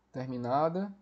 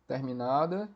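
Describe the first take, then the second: No difference in how they are said.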